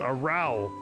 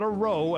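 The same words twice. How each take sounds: First: Row is said to rhyme with cow. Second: Row is said to rhyme with go. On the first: It means a noisy quarrel. The speaker calls it right. "The little loudness in the tavern" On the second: It means moving a boat with oars. The speaker calls it wrong. "not a row as in you're rowing a boat"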